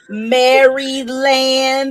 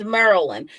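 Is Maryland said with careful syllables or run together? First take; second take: careful syllables; run together. First: Every syllable is pronounced separately and carefully. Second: The syllables run together as one word. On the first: This is how outsiders say it. The speaker calls it wrong. "Nobody is saying Maryland" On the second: This is how locals say it. The speaker calls it right. "It's a literal word that's together"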